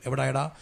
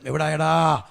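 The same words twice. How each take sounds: First: Said in the usual way. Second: Louder, drawn-out retold call; insistent calling out. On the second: Father phoning his late son, insistent loud call. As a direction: stretch the question out loudly, imitating a waiting father.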